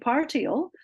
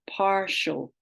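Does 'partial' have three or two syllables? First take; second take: three; two. First: The I is sounded as its own syllable. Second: The I is silent, merged into a 'sh' sound. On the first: The speaker calls it wrong. "which is harder to say, it needs more energy" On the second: The speaker calls it right. "we've in speech set gone to partial"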